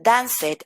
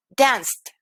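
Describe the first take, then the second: First: "danced" as two syllables, DAN-sed; wrong -ed pronunciation. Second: "danced" as one syllable, danst. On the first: Teacher showing what not to say, extra-syllable "danced". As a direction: sound out the E in "danced". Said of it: "En lugar de decir". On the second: Teacher correcting learners, "danced" said as danst. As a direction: drop the E, end "danced" on ST. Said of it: "voy a decir". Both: Shown as a demonstration.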